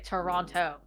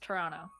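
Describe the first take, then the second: First: The second t is clearly pronounced. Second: The second t is dropped and silent. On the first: This is how outsiders say the name. The speaker calls it wrong. "we don't say Toronto" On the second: This is how locals say the name. The speaker calls it right. "It's Toronto"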